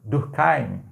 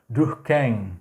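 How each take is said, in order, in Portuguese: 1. O nome é pronunciado com uma terminação com som alemão. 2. O nome é pronunciado com uma terminação com som francês. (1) "muita gente fala ... Heim é, é um, uma pronúncia meio que alemã" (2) "uma pronúncia mais voltada para o francês seria mais Durkheim"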